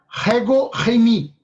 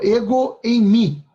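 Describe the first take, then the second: First: It starts with a throaty, guttural breath sound. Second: It starts directly with a plain vowel.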